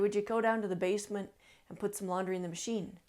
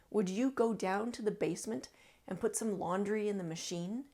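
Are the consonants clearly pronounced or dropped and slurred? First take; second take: dropped; clear. First: Consonants are dropped and the words slur together. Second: Every consonant is pronounced clearly and distinctly. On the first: The speaker calls it wrong. "you will sound like you're mumbling or you're slurring them together" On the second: The speaker calls it right. "that sentence should really sound like this"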